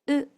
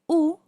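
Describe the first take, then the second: First: The vowel is said with spread lips. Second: The vowel is said with rounded lips. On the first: The speaker calls it right. "suena algo así como U" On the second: The speaker calls it wrong. "en vez de sonar U, como en el español"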